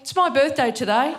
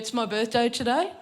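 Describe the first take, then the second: First: It sounds eager and childish, like a small kid. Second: It sounds offhand and casual, playing it cool. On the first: "sounding like a five-year-old" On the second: "try and be cool about it"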